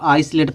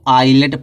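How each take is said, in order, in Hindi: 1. s की ध्वनि बीच में बोली जाती है। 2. s की ध्वनि पूरी तरह छोड़ दी जाती है। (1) "आइसलेट पढ़ देते हैं" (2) "यस साइलेंट रहेगा"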